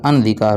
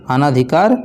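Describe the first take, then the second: First: "अनधिकार" with a short "अ", lower; correct form. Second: "अनाधिकार" with a long "आ" after "अन"; wrong form. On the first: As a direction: say "अनधिकार" with no long aa. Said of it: "क्या होता है?". ("अनधिकार" छोटे "अ" के साथ, सही उच्चारण) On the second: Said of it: "अनाधिकार नहीं होता". ("अनाधिकार" को लंबे "आ" के साथ बोलें) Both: Shown as a demonstration.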